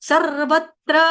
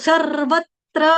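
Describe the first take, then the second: The two takes are said the same way.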